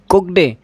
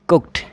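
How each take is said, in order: First: The word ends with a d sound. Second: The word ends with a t sound. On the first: The speaker calls it wrong. "कुकड नहीं" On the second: The speaker calls it right. "इस ईडी का उच्चारण टे होगा"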